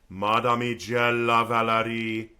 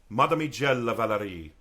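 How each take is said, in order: First: It is spoken in rhythm with a smooth connected line. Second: It is spoken freely, in a normal speech rhythm. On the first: "then I'm adding in the rhythm and the" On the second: "first I'm just speaking it"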